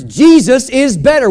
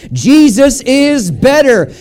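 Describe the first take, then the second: First: Said in the usual way. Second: "Jesus is better" slow and emphatic, word by word; leading a chorus. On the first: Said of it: "it's three words". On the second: Shown as a demonstration. Preacher has church repeat "Jesus is better", slow emphatic chorus lead. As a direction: draw out "Jesus is better" so all can join. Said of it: "Would you say that with me?".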